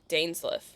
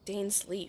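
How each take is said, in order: First: The last syllable does not sound like 'leaf'. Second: The last syllable sounds like 'leaf'. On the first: This is how the game says it. "they don't pronounce it leaf. They pronounce it Dainsleif" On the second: This is how the speaker is used to saying it. "I'm too used to it being Dainsleif for us"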